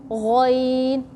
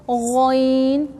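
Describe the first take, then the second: No difference in how they are said.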